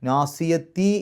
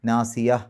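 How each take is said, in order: First: The word ends with a full ti syllable. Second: The word stops short without the ti syllable. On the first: This is the word in continuous reading. "നാസിയത്തി എന്നാണ് അവിടെ" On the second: This is the word when stopping the recitation. "സുക്കൂനുള്ള ഹ ആണെന്ന് വിചാരിച്ച് നിർത്തുക"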